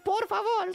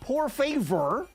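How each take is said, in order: First: It is said with a native Spanish accent. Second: It is said with a heavy American accent. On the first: The speaker calls it right. "It's por favor" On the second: The speaker calls it wrong. "in the most aggressively American por favor"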